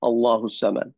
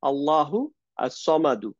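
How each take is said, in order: First: The final short vowel on samad is dropped. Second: The final short vowel on samad is pronounced.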